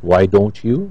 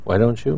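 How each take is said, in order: First: The t and y are pronounced separately. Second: The t and y merge into a ch sound.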